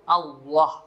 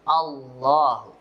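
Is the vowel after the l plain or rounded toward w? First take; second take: rounded; plain. First: The vowel after l is rounded like w. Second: The l is thick with a plain open vowel. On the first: The speaker calls it wrong. "Lafaz Allah berubah menjadi bunyi waw" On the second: The speaker calls it right. "Maka dibacanya tebal"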